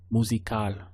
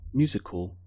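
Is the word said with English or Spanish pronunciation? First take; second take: Spanish; English. First: It is said with a Spanish pronunciation. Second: It is said with an English pronunciation.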